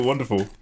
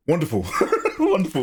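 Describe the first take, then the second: First: Said in the usual way. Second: "Wonderful" squeaked way higher, laughing; a hammed-up high "Wonderful"; mock wonderful. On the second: Mock delight at gun reload.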